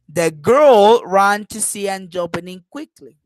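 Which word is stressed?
girl. The word girl carries the strongest stress. "I am stressing girl in this case"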